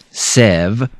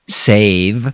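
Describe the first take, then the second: First: The vowel is a short E sound. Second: The vowel is a long A sound. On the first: The speaker calls it wrong. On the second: The speaker calls it right.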